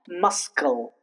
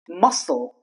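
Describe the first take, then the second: First: The C is sounded as K after the S. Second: The C is silent after the S. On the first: The speaker calls it wrong. "not muscle" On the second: The speaker calls it right. "The C remains silent when C comes after the letter S"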